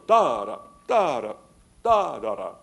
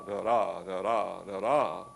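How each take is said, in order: First: DA-da, strong first beat each time; trochaic rhythm demo. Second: Da-DA with the weight on the second beat; iambic rhythm demo. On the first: Lecturer to class, demonstrating trochaic DA-da stress. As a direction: punch the first syllable of every pair. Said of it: "English is always the reverse". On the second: Lecturer to class, demonstrating iambic da-DA stress. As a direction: tap out an iamb, stress falling late. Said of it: "We do not speak". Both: Shown as a demonstration.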